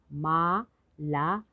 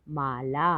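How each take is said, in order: First: माला stretched slowly into मा, ला; syllable by syllable. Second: Said in the usual way. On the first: Shown as a demonstration. Teacher sounding out माला for learners, syllable by syllable. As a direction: break माला into two long syllables. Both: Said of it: "तो शब्द पढ़ते हैं".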